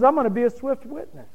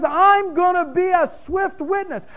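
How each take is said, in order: First: Said in the usual way. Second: High, booming voice of God declaring judgment; God's voice. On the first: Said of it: "God says". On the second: Retold or imitated. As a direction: proclaim it as God, high and strong. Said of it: "And God says".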